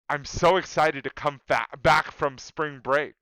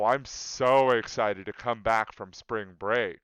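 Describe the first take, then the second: First: It is said in a sincere, genuine tone. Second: It is said in a sarcastic, mocking tone. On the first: The speaker really is excited. "seems fine" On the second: The speaker is not excited at all. "a sarcastic tone"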